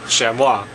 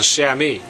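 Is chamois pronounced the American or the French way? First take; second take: French; American. First: It is said with a French pronunciation. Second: It is said with an American pronunciation. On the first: "its name chamois is a very French name" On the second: "in American English, it's usually referred to as the chamois"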